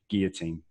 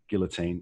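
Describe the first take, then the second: First: The L sound is dropped, French style. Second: The L sound is clearly pronounced. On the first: "if you're American, you say it like the French" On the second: "if you're British, you pronounce guillotine with the L"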